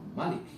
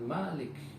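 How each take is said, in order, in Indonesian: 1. Vokal pertama dibaca pendek. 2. Vokal pertama dibaca panjang. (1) "Malik yang berarti adalah maharaja" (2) "Malik yang berarti pemilik"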